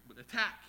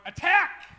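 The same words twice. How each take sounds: First: Said in the usual way. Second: High, loud battle shout; war cry. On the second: Acted. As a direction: general shouting a command to his army. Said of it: "what a general would shout to his army".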